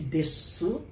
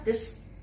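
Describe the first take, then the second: First: The final vowel u is clearly pronounced. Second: The final vowel is swallowed, ending on s. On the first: "pronuncia-se desu claramente" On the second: "outros vão engolir o e ficar des"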